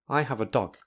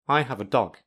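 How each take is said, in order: The two takes are said the same way.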